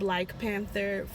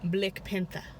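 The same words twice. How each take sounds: First: The first word has the ordinary 'black' vowel. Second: The first word is said like 'blick'. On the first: The speaker calls it wrong. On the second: The speaker calls it right. "You got to pronounce it differently. ... This one is Blick"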